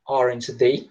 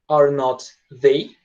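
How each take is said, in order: First: Are and not are joined into one syllable. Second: Are and not are said as separate words. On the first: The speaker calls it right. "a gente fala aren't" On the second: The speaker calls it wrong. "Em vez de falar are not ou is not"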